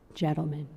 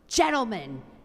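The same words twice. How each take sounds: First: The voice is very soft. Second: The voice is harsh and bitter.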